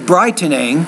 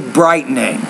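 First: The middle T is released as a full T. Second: The middle T is replaced by a glottal stop. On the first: "You say brightening" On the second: "I say brightening"

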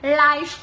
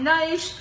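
First: The word begins with an L sound. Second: The word begins with an N sound. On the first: The speaker calls it wrong. "唔係nice to meet you。N 音唔係L 音" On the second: The speaker calls it right. "大佬係nice to meet you"

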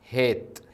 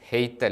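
First: The vowel is a steady long e. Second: The vowel glides from e to i. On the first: The speaker calls it right. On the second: The speaker calls it wrong.

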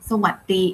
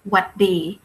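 First: The word is said with its first syllable. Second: The word is said without its first syllable. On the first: "just shorten it from"

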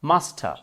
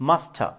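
The two takes are said the same way.

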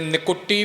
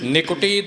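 First: The word is run together without a 'u' after k. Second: A short 'u' is fully sounded after k. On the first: The speaker calls it wrong. "ਨਿਕਟੀ ਇਕੱਠਾ ਨਹੀਂ ਬੋਲਣਾ" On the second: The speaker calls it right. "ਕੱਕੇ ਦੇ ਔਂਕੜ ਦਾ ਪੂਰਾ ਉਚਾਰਨ ਕਰਨਾ ਹੈ"

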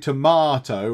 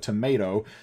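First: It is said with a British pronunciation. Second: It is said with an American pronunciation. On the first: "I'm in the UK. I say tomato, like with a tamar" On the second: "you folks in the US watching, you say tomato"

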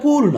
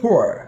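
First: The vowel is a plain long 'oo'. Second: The vowel is a short 'u' gliding off. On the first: The speaker calls it wrong. "পুর না" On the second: The speaker calls it right. "উচ্চারণটা হচ্ছে ফোর"

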